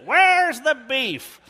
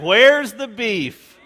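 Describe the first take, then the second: First: It imitates the old lady's voice from the commercial. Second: It is said in the speaker's normal voice.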